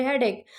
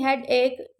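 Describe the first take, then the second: First: हेडेक as one quick word, "HEH-dek"; teacher's model हेडेक, no gap before "ek"; joined-up pronunciation. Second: हेडेक slowly as two words, "head, ek"; slow teaching split of हेडेक into "head-ek"; broken-down pronunciation. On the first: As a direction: say हेडेक with "head" and "ek" run together. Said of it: "हेडेक को इकट्ठा बोले". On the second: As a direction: say हेडेक as "head" plus Urdu "ek". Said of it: "जिस तरह आप हेडेक को इकट्ठा बोले". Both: Shown as a demonstration.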